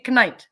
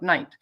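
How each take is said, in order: First: The initial K sound is pronounced. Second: The initial K sound is silent. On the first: The speaker calls it right. "Should be knight" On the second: The speaker calls it wrong. "and not knight"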